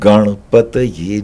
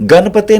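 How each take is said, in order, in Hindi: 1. शब्द pataye पर खत्म होता है, इसमें य की आवाज़ है। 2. शब्द pate पर खत्म होता है, इसमें य की आवाज़ नहीं है। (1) "ओम गणपतये नमः" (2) "गणपते नहीं है"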